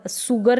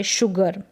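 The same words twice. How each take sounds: First: सुगर with a plain s at the start; teacher shows सुगर as the mistake; wrong s sound. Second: Teacher gives शुगर right with sh; correct sh sound. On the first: Teacher to class, showing the wrong s. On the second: Teacher to class, correct sh model. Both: Shown as a demonstration. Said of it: "सुगर नहीं पढ़ेंगे".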